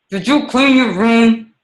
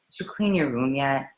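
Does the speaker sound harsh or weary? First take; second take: harsh; weary. First: It sounds harsh and scary. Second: It sounds weary and exhausted.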